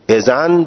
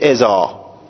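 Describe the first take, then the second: First: The word ends with an 'n' sound. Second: The word ends with a long 'a' sound. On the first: This is the form used when speech continues. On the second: This is the form used when pausing at the end.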